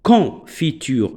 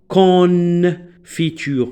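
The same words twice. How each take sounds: First: The on is one nasal vowel. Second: The o and n are sounded separately. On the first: The speaker calls it right. "je vais la prononcer confiture ... est un seul son" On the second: The speaker calls it wrong. "je vais pas dire confiture non"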